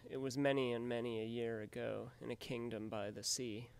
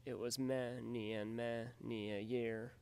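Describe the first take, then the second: First: Every stressed beat hit hard, "many" leaned on; extra emphasis. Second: "many" stressed, slow and deliberate; slow scansion. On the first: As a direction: read the line pounding the beats. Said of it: "read it for extra emphasis". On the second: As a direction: tap out the anapests slowly. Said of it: "as in". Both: Shown as a demonstration.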